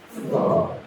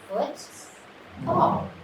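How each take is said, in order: First: The two parts are blended quickly together. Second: The two parts are separated by a pause. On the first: The parts are put back together. "they have to say fast" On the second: The word is broken into its parts. "break apart football"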